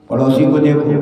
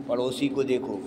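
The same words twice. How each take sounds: First: Louder. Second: Softly. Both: Real, not acted. Repeated phrase, soft then loud.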